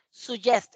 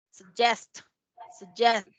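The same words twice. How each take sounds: First: "suggest" as soo-JEST with a full u; wrong full vowel. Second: "suggest" as suh-JEST, first vowel barely there; schwa first syllable. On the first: Teacher showing what to avoid, "suggest" as soo-JEST. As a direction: give "suggest" a clear Spanish u. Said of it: "No es suggest". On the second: Teacher modelling the schwa, "suggest" as suh-JEST. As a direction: reduce the start of "suggest", stress the end. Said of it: "No es suggest, es su". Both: Shown as a demonstration.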